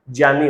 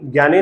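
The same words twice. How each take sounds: First: ज्ञानी as "jyani", j opening; correct pronunciation. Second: ज्ञानी as "gyani", hard g; wrong pronunciation. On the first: Teacher answering with the right form, low "jyani". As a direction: say ज्ञानी with j, not g. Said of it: "क्या हो सकता है?". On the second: Teacher rejecting the common form, "gyani" with g. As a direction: say ज्ञानी with "gy" at the start. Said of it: "ज्ञानी नहीं हो सकता". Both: Shown as a demonstration.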